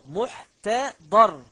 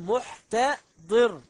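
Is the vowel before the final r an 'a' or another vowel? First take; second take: a; other. First: The vowel before the final r is 'a'. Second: The vowel before the final r is not 'a'. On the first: The speaker calls it right. "قل بفتح الضاد محتضر" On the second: The speaker calls it wrong. "ولا تقل محتضر"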